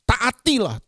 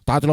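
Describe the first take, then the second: First: The word is said with strong, forceful emphasis. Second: The word is said lightly, without any emphasis. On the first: The command is important. The speaker calls it right. "itu penting tuh. Kasih tekanan" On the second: The command is not taken seriously. The speaker calls it wrong. "kita kadang-kadang bermain"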